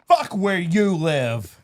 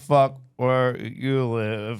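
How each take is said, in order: First: It is said forcefully, with gusto. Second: It is said hesitantly, like a question.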